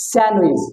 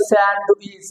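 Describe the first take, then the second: First: "স্যান্ডউইচ" without the d, san-wich; correct pronunciation. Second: "স্যান্ডউইচ" with the d sounded; wrong pronunciation. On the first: Teacher models it right, silent d in "স্যান্ডউইচ". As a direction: drop the d in "স্যান্ডউইচ". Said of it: "সঠিকটা হবে". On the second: Teacher shows the mistake, audible d in "স্যান্ডউইচ". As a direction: say "স্যান্ডউইচ" as sand-wich. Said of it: "ভুলটা হলো". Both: Shown as a demonstration.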